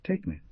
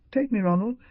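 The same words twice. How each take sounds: First: Said in the usual way. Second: High, louder begging cry; desperate plea. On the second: A narrator's reading. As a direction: beg him with everything left. Beryl begging Ronnie to elope.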